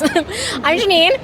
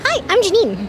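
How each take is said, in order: First: It is said in her normal voice. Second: It is said in a cartoon Tubby voice.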